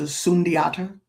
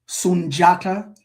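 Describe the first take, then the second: First: The middle consonant is a separate 'dee' sound. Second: The middle consonant is a 'j' sound. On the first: The speaker calls it wrong. "as opposed to Sundiata" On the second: The speaker calls it right. "D I, D J, or D W has that J sound"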